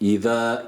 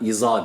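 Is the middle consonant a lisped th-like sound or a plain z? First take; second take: lisped; plain z. First: The middle consonant is a lisped th-like sound. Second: The middle consonant is a plain z sound. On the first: The speaker calls it right. "İza peltektir" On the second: The speaker calls it wrong. "iza değil"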